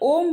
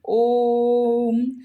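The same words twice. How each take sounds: First: The vowel is held for a shorter time. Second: The vowel is held long with more force. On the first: The vowel counts as two units of length. "अगर हम direct ओम बोलेंगे तो ऐसे लग रहा है कि दो मात्राओं का प्रयोग किया गया है" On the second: The vowel counts as three units of length. "जब हम अधिक प्रेशर के साथ इसको बोलेंगे ओम, तो इसमें ज़्यादा समय लगा हुआ है"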